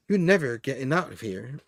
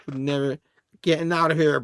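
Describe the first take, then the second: First: Said in the usual way. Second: Playfully added menace; hammed-up villain threat. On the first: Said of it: "he doesn't say it like that". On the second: Comic reader hams up Limbo's threat, mock villain. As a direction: repeat it as a mock villain, capped with a laugh. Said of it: "he doesn't say it like that, but, you know, I added that".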